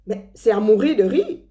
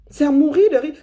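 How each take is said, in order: First: Said in the usual way. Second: C'est à mourir de rire with mourir hit high and loud; emphatic repeat, higher and louder. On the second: Shown as a demonstration. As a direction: punch the word mourir on the repeat.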